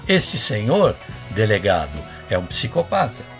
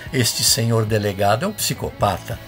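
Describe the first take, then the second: First: There are pauses before and after 'delegado'. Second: The sentence runs on without any pause. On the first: The delegate is being addressed about another man. "essa pausa" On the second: The delegate himself is called a psychopath. "Se você não fizesse essa pausa"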